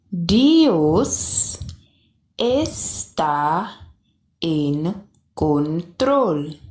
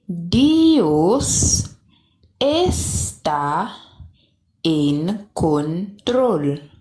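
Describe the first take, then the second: No difference in how they are said.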